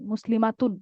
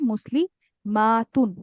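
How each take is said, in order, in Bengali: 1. শব্দটি তাড়াতাড়ি, ছোট স্বরে বলা হয়। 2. -tun-এর আগের স্বরটি টেনে লম্বা করে বলা হয়। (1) "একটু তাড়াতাড়ি পড়ে ফেলতেছেন" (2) "আলিফটা সহ একটু টান দিয়ে পড়তে হবে"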